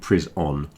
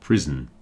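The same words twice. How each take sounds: First: The second syllable has a full, clear vowel. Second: The second syllable shrinks to a short reduced vowel. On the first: The speaker calls it wrong. "I'm not saying prison" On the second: The speaker calls it right. "I'm saying prison. ... that O sound is contracted down to the N"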